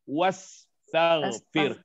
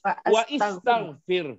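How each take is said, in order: First: The 'wa' runs straight into 'staghfir'. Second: The 'i' after 'wa' is said separately. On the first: "harus diwasal wastaghfir" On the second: "asalnya kalau tertulis wa istaghfir"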